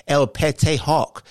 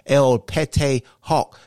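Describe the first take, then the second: First: Said in the usual way. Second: El Pete Hawk drawn out slowly, each syllable savoured; fancy slow pronunciation. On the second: Shown as a demonstration. Host spelling out his alter ego's name, slow and fancy. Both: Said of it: "is how you say my name".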